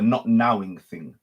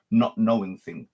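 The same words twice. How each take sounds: First: "not nowing thing", nowing said like "now" plus ing; corrected word. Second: "not knowing thing", knowing with a plain n sound, the slip before the fix; misspoken word. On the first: Teacher corrects himself to the coined word, careful correction. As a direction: stress "nowing" to mean being in the now. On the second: Teacher slips on the word before correcting himself, plain. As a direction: say "not knowing thing" as the first, mistaken take. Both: Real, not acted. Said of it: "Sorry, the not nowing thing".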